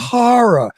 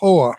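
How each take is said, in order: First: It is said with two full syllables. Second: It is squeezed into a single syllable. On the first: The speaker calls it right. "please pronounce that correctly" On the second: The speaker calls it wrong.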